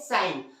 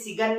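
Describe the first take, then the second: First: The g sound is silent in the word. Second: The g sound is pronounced in the word. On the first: The speaker calls it right. "क्या पढ़ते हैं, साइन" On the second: The speaker calls it wrong. "इसे सिगन नहीं पढ़ते"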